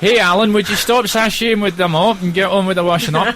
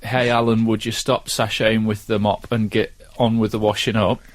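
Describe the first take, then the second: First: It is said with a Scottish accent. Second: It is said without a Scottish accent. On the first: The speaker calls it right. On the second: The speaker calls it wrong.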